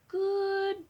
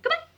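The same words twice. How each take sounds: First: It is said very slowly. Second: It is said very fast.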